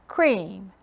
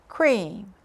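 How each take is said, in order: No difference in how they are said.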